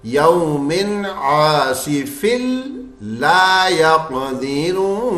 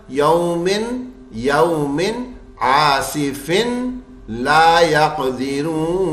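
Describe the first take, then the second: First: Slow chant, "आसिफिल" ending in l, doubled into "ला"; merged tanween into lam. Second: Slow chant, clear n ending "आसिफिन", apart from "ला"; wrong unmerged tanween. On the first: Teacher shows students correct idgham, l doubled in "आसिफिल ला". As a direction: melt the n into a held l, "आसिफिल ला". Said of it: "तो हम कैसे पढ़ेंगे?". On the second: Teacher shows students the wrong joining, n kept in "आसिफिन". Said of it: "ऐसे नहीं पढ़ूंगा". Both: Shown as a demonstration.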